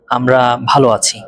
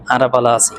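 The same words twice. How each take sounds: First: Said in the usual way. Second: আরা বালা আছি, Chittagonian, "ara bala si"; চাটগাঁইয়া উচ্চারণে; Chittagonian dialect. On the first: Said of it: "বলতে চান". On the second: Shown as a demonstration. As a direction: say it in Chittagong speech. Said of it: "চট্টগ্রামের ভাষায় বলবেন".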